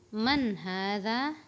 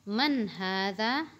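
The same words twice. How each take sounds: Both takes have the same delivery.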